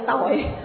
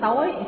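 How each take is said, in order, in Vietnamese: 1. Từ này được phát âm với thanh nặng. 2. Từ này được phát âm với thanh sắc. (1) "hạ dấu nặng nó ra chữ tội" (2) "thêm dấu sắc, nó thành chữ tối"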